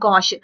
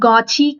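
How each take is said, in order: First: The word ends with an 'sh' sound. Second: The word ends with a 'chee' sound. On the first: The speaker calls it right. "Pronunciation is important here" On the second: The speaker calls it wrong. "గాచి కాదిది"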